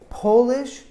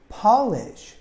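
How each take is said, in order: First: The first vowel is a long O sound. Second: The first vowel is a short A sound. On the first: It describes a person from Poland. "we emphasize the first syllable, but it has a long O sound" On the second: It means to make something shiny. "instead of being an O sound, it's an A sound, like octopus"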